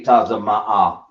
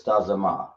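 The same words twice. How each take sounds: First: Tazama'a with the last a held long and stretched; drawn-out final a. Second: Tazama with a clipped, short last a; short final a. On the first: Teacher shows students the longer Tazama'a ending. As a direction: say Tazama'a slowly, hold the final a. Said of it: "It may be". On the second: Teacher tries the short Tazama then rejects it. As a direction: say Tazama, cut the ending short. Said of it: "that's not right". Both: Shown as a demonstration.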